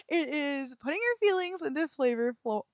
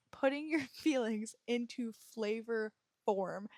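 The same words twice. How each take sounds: First: "flavor flo-" stumbles, cut off mid-word instead of saying form; tongue-tied slip. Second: "flavor form" said right at last, carefully, with a small laugh; careful retry. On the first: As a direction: trip over "flavor flo-" and break off at flo. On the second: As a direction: land "flavor form" cleanly on the second try, laughing a little. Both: Real, not acted. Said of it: "Okay, I'm gonna try one more time".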